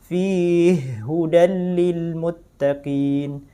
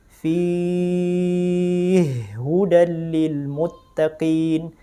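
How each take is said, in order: First: The stretched vowel is held for two beats. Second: The stretched vowel is held for four beats. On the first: "Yang dua harokat" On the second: "Yang empat"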